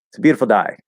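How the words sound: The last word has the vowel of die.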